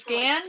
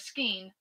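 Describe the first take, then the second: First: The vowel sounds like the one in 'can'. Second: The vowel sounds like the one in 'rain'. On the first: This is how the speaker says it. "scan, what I say" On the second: This is how someone else says it. "or skein, what Naomi says"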